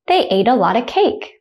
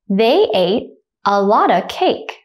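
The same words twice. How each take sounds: First: The sentence is said at normal speed. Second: The sentence is said slowly. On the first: "the second time I'll say it at a normal speed, like a native speaker" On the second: "The first time I'll say it slowly"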